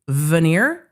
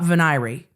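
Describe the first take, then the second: First: The word has two syllables, ending in 'eer'. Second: The word has three syllables, ending in 'ee'. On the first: "that it is veneer" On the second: "not venery"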